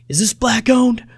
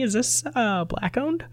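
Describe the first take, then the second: First: The question is asked in an aggressive tone. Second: The question is asked in a polite tone.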